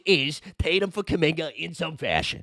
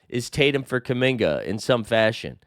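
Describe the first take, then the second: First: It is read in a put-on Boston accent. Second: It is read in the speaker's ordinary accent.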